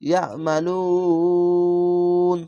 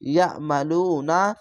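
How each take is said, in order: First: The word ends on n with the u stretched. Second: The word ends with a short vowel after n. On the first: "তিন আলিফ টেনে পড়বেন।" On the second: "নুন জবর না"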